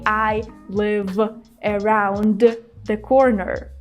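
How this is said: There is a pause between 'live' and 'around'. The speaker calls it wrong. "We don't pause. We don't say"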